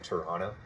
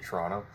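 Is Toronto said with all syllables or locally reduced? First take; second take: full; reduced. First: It is said the outsider's way, fully pronounced. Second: It is said the local way, reduced.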